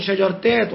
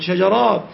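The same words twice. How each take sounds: First: شجرتات said as the wrong form, with a rising tune; wrong plural form. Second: شجرات said as the right form, falling; correct plural form. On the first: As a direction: mark شجرتات as the incorrect plural. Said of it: "لا تقول شجرتات". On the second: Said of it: "ولكن تقول شجرات". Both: Shown as a demonstration.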